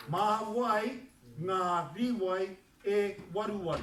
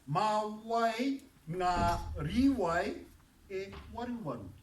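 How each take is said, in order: First: A bit slow, louder repeat of the sentence. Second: Drawn-out, louder model sentence, word by word; very slow demo. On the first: Teacher checks the class can hear it, slow and louder. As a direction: say it again more smoothly. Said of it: "can you hear it". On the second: Teacher asks class to listen, very slow and louder. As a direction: stretch every word so they can follow. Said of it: "listen to this". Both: Shown as a demonstration.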